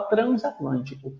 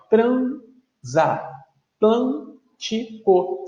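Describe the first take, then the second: First: Said in the usual way. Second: "transatlântico" very slowly, a pause after each syllable. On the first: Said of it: "Se eu for fazer a separação completa". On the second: Shown as a demonstration. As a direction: split "transatlântico" into tran-za-tlân-ti-co. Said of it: "fazer a separação completa".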